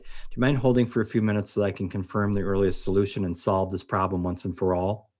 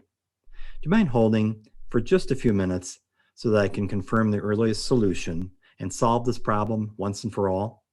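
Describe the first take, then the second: First: It is read flat without pauses. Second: It is read with pauses before key points.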